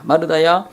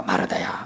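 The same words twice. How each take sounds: First: Said in the usual way. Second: Low, soft first call of the name 마르다야. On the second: Retold or imitated. Jesus gently calling Martha by name, hushed.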